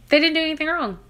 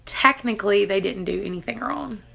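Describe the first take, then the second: First: "They didn't do anything wrong" said higher, with weight on "They"; emphatic repeat. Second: Said in the usual way. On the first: Real, not acted. Patient defending the hospital, repeating "They didn't do anything wrong" emphatically. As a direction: insist on it, punching "They".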